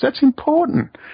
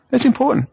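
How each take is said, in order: First: "important" hit high and loud; stressed "important". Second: "that's" hit high and loud; stressed "that's". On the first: [name] insisting to Max, stress on important. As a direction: lean on "important". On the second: [name] repeating it to Max, stress on that's. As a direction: lean on "that's". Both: Real, not acted.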